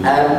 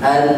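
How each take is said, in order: First: The final n is held softly through the nose. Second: The same.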